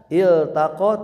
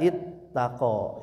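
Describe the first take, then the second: First: The l is pronounced clearly before the t. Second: The l merges into the following t sound. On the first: The speaker calls it right. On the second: The speaker calls it wrong. "tidak ittaqa"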